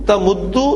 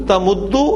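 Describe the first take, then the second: Both takes have the same delivery.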